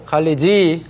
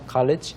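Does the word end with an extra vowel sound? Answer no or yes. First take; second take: yes; no. First: An extra vowel sound is added at the end. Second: It ends short, with almost no final vowel. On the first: The speaker calls it wrong. "college 하면 안 되고요" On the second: The speaker calls it right. "짧게 거의 모음이 없죠"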